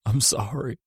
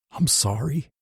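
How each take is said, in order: First: Bawling. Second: Higher, cracking apology; voice breaking. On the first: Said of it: "I bawled". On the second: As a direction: let the voice break on the words. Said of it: "I muttered, my voice breaking". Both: A narrator's reading.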